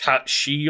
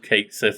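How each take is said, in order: First: The second word is said like 'she'. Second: The second word is said like 'sith'. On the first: The speaker calls it right. "it should be" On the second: The speaker calls it wrong. "We said it wrong"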